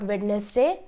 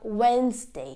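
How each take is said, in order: First: The D is pronounced. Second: The D is not pronounced. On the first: The speaker calls it wrong. "It's not Wednesday" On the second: The speaker calls it right. "the D becomes silent"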